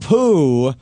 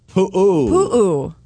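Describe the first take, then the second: First: The vowel is sounded once as one syllable. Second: The vowel is sounded twice as two syllables. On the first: The speaker calls it wrong. "Not poo" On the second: The speaker calls it right. "you have to pronounce the vowel"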